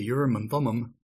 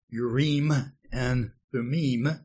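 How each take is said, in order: First: The term is said with English pronunciation. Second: The term is said with Hebrew-like pronunciation. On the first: The speaker calls it wrong. "our English pronouncing tongues want to say" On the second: The speaker calls it right. "the actual Hebrew or closer to the Hebrew pronunciation"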